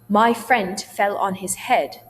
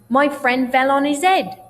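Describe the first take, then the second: First: The h sounds in 'his head' are pronounced. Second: The h sounds are dropped and vowels squished together. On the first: "instead of saying that" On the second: "I would say"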